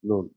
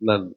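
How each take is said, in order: First: The vowel is a long 'oo' sound. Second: The vowel is a short 'uh' sound. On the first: The speaker calls it right. "நூன்லே நிறுத்திக்கலாம்" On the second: The speaker calls it wrong. "சிலர் இத நன் அப்படின்னு ப்ரொனவுன்ஸ் பண்ணுவாங்களாம்"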